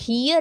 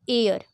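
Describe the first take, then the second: First: It starts with an h sound, like here. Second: It starts with a vowel, like air. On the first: The speaker calls it wrong. "या फिर हियर अगर हम इसे पढ़ने लगें तो फिर तो हमारे क्वेश्चन गलत ही होने वाला है" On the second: The speaker calls it right. "क्योंकि यहाँ पे जो एच है ना वो साइलेंट है"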